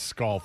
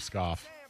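First: An L sound comes before the F. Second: No L sound comes before the F. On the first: This is how someone else says it. The speaker calls it wrong. "Says scoff instead of scoff. ... He does OLFF" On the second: This is the usual way to say it. The speaker calls it right. "He can't do the OFF"

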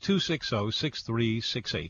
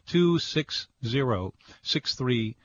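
First: The number is read at a normal, quicker pace. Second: The number is read at a slower pace.

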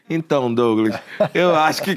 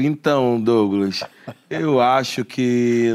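First: The phrase is spoken at double, rushed speed. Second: The phrase is spoken at a normal, slower pace. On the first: "Aí na velocidade 2" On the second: "E a pessoa já fala assim"

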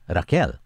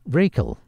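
First: The name is said the Latin American way. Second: The name is said the North American way. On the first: "in Latin America, it's pronounced as" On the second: "In North America, her name is pronounced"

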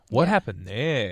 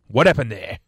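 First: It sounds relaxed and casually curious. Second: It sounds stern and threatening. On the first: It is a simple, innocent question. "the tone in their voice isn't" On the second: The listener is in trouble for a mistake.

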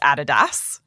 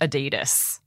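First: It is said the German way. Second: It is said the American way. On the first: The speaker calls it right. "It is Adidas, ... because it's a German company" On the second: The speaker calls it wrong. "not Adidas ... not American"

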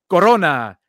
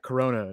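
First: Corona is said with a Spanish accent. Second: Corona is said with an English accent.

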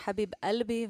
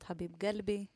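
First: The phrase is said in an Egyptian accent. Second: The phrase is said in a Yemeni accent. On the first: "הם אומרים" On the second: "ואנחנו אומרות"

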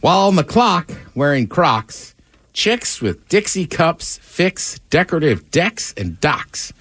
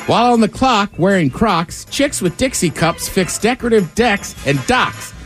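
First: It is read at a normal pace. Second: It is read quickly.

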